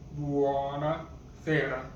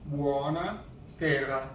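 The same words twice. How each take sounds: First: Buona sera said slower, syllables spaced; slower repeat. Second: Said in the usual way. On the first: Shown as a demonstration. Teacher modelling buona sera for learners, slowly. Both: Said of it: "good evening is buona sera".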